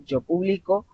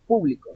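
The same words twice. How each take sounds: First: "publico" stressed on BLI; pu-BLI-co, present-tense verb; stress on middle syllable. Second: "público" stressed on PÚ; PÚ-bli-co, front-stressed; stress on first syllable. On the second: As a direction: hit the opening syllable of "público". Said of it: "ya no empieza". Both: Shown as a demonstration.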